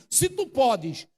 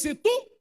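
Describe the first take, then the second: First: Se tu podes slow, stress on tu; drawn out Se tu podes, weight on tu; wrong wording. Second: Se tu said much higher; stressed tu. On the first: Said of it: "ele não disse assim". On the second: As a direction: lift tu high. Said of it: "Ele disse". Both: Shown as a demonstration.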